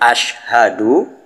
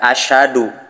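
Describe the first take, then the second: First: The h sound is clearly pronounced. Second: The h sound is dropped. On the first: I bear witness. The speaker calls it right. "Yang seharusnya ashhadu" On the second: I am harsh. The speaker calls it wrong. "tetapi dibaca asyhadu"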